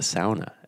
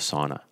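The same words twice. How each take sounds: First: Sauna is said the Finnish way. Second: Sauna is said the common English way.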